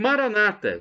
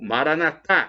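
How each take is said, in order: First: The stress is not on the last syllable. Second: The stress is on the last syllable. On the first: This is how evangelical Protestants say it. "como dizem os nossos irmãos separados, os evangélicos ou protestantes" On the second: This is how Catholics say it. "com a tônica na última sílaba, como dizemos nós católicos"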